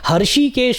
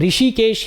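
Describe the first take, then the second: First: The word starts with the sound 'har'. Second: The word starts with the sound 'ri'. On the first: The speaker calls it wrong. "हर्षिकेश बोलना या हरिकेश बोलना ये गलत है" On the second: The speaker calls it right. "ऋषिकेश ही उसको बोलना चाहिए"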